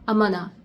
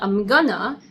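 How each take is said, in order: First: The phrase is blurred into one short 'amana'. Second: The phrase keeps a clear 'I'm' and 'gonna'. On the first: "you can say also amana" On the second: "instead of saying I'm gonna"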